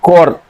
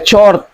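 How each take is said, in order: First: The word begins with a k sound. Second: The word begins with a ch sound. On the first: The speaker calls it right. "baca chord" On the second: The speaker calls it wrong. "bukan dibaca chord"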